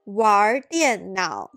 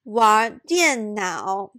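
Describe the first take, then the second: First: An 'er' sound follows the word 'wan'. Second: No 'er' sound follows the word 'wan'.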